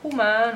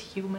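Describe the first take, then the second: First: The word has a playful, altered pronunciation. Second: The word has its standard pronunciation. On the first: A cat is imagined to be speaking. "we always speak for our cats" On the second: This is the usual form of the word. "I know it's human"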